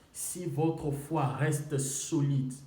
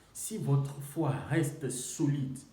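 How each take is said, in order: The two takes are said the same way.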